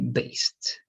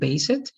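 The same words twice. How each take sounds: First: The ending is a short t with no syllable. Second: The ending is said as an extra syllable. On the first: The speaker calls it right. "only based" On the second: The speaker calls it wrong. "Not based"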